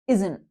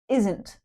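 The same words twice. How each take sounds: First: The final T sound is swallowed and dropped. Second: The final T sound is clearly pronounced. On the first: This is how it sounds in natural speech. "we often swallow that T sound" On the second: The speaker wants to be really clear. "you can stress the T"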